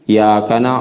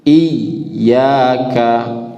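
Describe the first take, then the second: First: The 'y' sound is short and single. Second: The 'y' sound is held and doubled. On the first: The speaker calls it wrong. "jangan pula hilang tasdidnya" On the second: The speaker calls it right. "Ini tasydid, ditarik ke dalam seketik"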